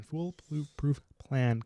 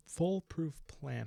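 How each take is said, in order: First: "Foolproof plan" said very slowly, stress on plan; drawn-out emphasis. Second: Foolproof said slowly with weight; stressed foolproof. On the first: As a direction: stretch out "Foolproof plan" with mock weight. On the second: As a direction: lean on "foolproof plan", drawn out. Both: Shown as a demonstration.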